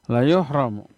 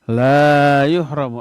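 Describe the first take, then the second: First: The vowel in la is short. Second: The vowel in la is long. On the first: He will surely be deprived. The speaker calls it right. "La-nya la pendek, dibacanya pendek, nggak boleh panjang" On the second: He will not be deprived. The speaker calls it wrong. "Kalau dibaca, dibaca panjang, terbalik artinya"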